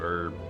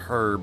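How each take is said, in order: First: The word begins without any h sound. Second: The word begins with an audible h sound. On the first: "For me, the H is silent" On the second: "pronounce the H in a lot of words, like herb, but it's rare and it's much more British"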